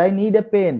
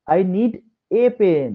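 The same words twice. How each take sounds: First: "a pen" with the ordinary open ah; "a" pronounced ah, not ay. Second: "a" in "I need a pen" said as ay; slow, deliberate "a pen" with ay; emphatic "a" as ay. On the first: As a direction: say "a" in "I need a pen" as ah. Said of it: "কিন্তু ভুল নয়". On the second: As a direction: stress it with a clear ay for "a". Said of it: "তখন আমরা এ উচ্চারণ করতে পারি". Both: Shown as a demonstration.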